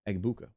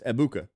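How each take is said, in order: First: The G sound is pronounced in the name. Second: The G sound is left silent in the name. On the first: The speaker calls it wrong. "You're the only one who said Egbuka" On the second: The speaker calls it right. "The G is silent"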